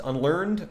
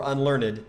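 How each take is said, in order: First: Said in the usual way. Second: "unlearned" in three syllables, un-LEARN-ed; sounded -ed. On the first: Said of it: "this word could be pronounced". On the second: Shown as a demonstration. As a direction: give "unlearned" its extra final syllable. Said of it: "could be pronounced unlearned or unlearned".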